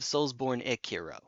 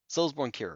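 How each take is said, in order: First: The E sound starts Kiro, adding a syllable. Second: The E sound stays with born before Kiro. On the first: "taking out the E from born and putting the E onto Kiro" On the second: "I take the E from born and just you know keep it on born"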